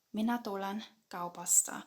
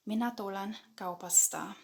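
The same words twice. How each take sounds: The two takes are said the same way.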